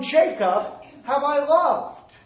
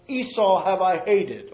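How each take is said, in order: First: "loved" stretched out slowly and lifted higher; stress on loved. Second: "Esau" and "hated" pressed hard, as the usual reading does; stress on Esau and hated. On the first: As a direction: put the weight on "Jacob have I loved", slowly. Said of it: "the emphasis in Malachi one is on". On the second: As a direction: lean on "Esau have I hated" like the listener would. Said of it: "the emphasis on the statement is not on the part where we might put the emphasis". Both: Shown as a demonstration.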